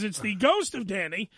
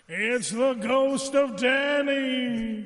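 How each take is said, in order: First: It is said in a normal speaking voice. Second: It is said in a spooky ghost voice.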